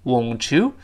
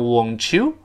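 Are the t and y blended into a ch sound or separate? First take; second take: blended; blended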